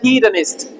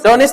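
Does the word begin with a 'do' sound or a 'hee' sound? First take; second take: hee; do. First: The word begins with a 'hee' sound. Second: The word begins with a 'do' sound. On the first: The speaker calls it right. "H E ही पढ़ते हैं ना हम" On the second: The speaker calls it wrong. "डोनिस्ट नहीं पढ़ा जाएगा"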